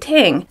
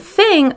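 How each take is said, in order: First: It begins with a T sound. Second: It begins with a TH sound. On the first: The speaker calls it wrong. "they say ting" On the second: The speaker calls it right. "instead of saying thing"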